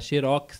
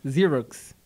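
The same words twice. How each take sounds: First: It is said with a Brazilian Portuguese accent. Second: It is said with an American English accent. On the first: This is how people here say it. "que a gente fala aqui" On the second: This is how the company's own people say it. "se quiser falar com o sotaque deles"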